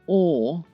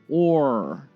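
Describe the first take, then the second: First: A plain vowel with no R sound. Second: A vowel with a heavy R sound. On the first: "British style" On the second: "American style"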